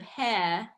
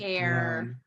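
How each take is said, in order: First: The final R is weak and mostly dropped. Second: The final R is clear, tongue pulled back. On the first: The speaker calls it wrong. "instead of hair" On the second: The speaker calls it right. "pull pull that tongue back as if you're going to say the initial R"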